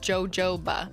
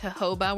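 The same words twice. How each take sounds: First: The word begins with a J sound. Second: The word begins with an H sound. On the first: The speaker calls it wrong. "I have read it for its literal letters with a J and just said jojoba" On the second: The speaker calls it right. "the proper pronunciation is jojoba, where the J is silent"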